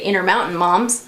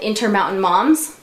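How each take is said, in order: First: The T sounds are dropped. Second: The T sounds are clearly pronounced.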